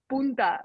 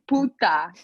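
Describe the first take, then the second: First: It is said with an n before the t. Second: It is said with no n before the t. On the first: The speaker calls it wrong. "But you've heard people say punta" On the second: The speaker calls it right. "It's puta, P U T A"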